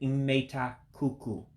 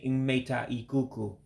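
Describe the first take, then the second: First: The vowel before kuku is dropped. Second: The vowel before kuku is fully pronounced. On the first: "I'm saying imeta kuku" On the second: "you're not hearing me saying imeta ikuku"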